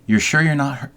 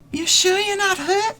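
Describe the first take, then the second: First: It is said in a normal speaking voice. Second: It is said in a put-on character voice.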